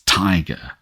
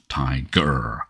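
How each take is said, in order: First: The stress is on the first syllable. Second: The stress is on the second syllable. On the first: The speaker calls it right. "We can't say tiger without stressing the first syllable. It's tiger" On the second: The speaker calls it wrong. "not tiger"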